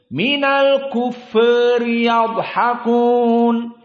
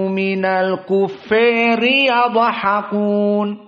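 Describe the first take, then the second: First: The a in kuffari leans slightly toward e. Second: The a in kuffari is pulled strongly toward e. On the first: "Kufur itu taklil" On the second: "ditambah imalah"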